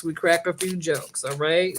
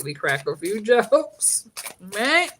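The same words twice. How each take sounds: First: Said in the usual way. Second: Slowed, breaking into a laugh mid-line; laughing through it. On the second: Shown as a demonstration. Comedian to her viewers, laughing as she says it. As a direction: let the laugh spill out before jokes.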